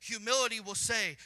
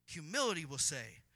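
First: Loud, ringing "Humility will say"; loud preacher's setup. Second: Said in the usual way. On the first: Acted. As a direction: call out "Humility will say" to the room.

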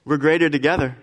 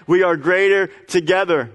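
First: Said in the usual way. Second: "we" punched and held apart from "are"; stress on WE. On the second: Shown as a demonstration. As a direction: hit "We" hard, then "greater together".

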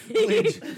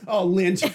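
First: "lint" jumped way up high, squeaked; squeaky high lint. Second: Said in the usual way. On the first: Retold or imitated. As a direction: squeak "lint" like a sudden find.

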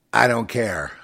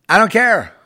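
First: Said in the usual way. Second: Loud, high defiant "I don't care"; defiant shout. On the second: Real, not acted. Repeated defiant line, shouted.

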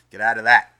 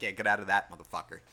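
First: Sudden loud burst on the last word; loud mock snarl. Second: Said in the usual way. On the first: To two strangers he imagines throttling, a loud mock snarl. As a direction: yell it like you're finishing the job.

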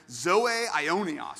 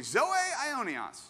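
First: Zoe aionios, slow and loud, each syllable clear; Greek term. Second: Zoe aionios, high and slow, for all to repeat; Greek call-out. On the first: Pastor teaching the Greek phrase, slow careful zoe aionios. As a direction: spell out zoe aionios slowly for the church. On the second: Pastor calling the congregation to repeat Zoe aionios, high and slow. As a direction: lead the room in saying Zoe aionios. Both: Shown as a demonstration. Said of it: "Everyone say".

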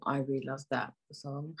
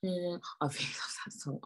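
First: Said in the usual way. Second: Slow whisper; whispered love for the song. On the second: Real, not acted. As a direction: breathe it out softly.

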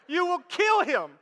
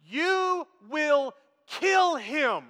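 First: Higher-pitched, emphatic warning in one run. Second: Very slow, each word stretched out; drawn-out warning. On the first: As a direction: warn him urgently without stretching the words. Repeats the warning more quickly. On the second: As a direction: spell out the warning word by word, hugely slowly. Stressed warning to the big man. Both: Retold or imitated.

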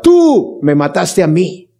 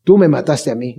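First: Drawn-out, slow mock yell of blame; a hint of Judas yelling, stretched out. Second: Lower, faded repeat of the accusation; echoed mock yell. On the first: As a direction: cry out the accusation slowly. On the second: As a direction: let the cry fall away. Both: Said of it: "Judas le grita".

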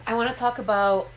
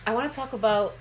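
No difference in how they are said.

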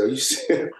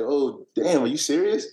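First: Asked through a laugh; can't believe it, laughing; mock-stunned question with a chuckle; laughing disbelief. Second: Higher, rising, stunned question; imitating his own floored reaction; oh damn, really?; shocked disbelief. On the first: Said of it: "I said". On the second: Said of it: "I was like".

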